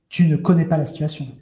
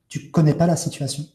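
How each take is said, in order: First: The negative 'ne' is pronounced before the verb. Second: The negative 'ne' is left out entirely. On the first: "je ne vais pas dire" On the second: "mais je vais dire"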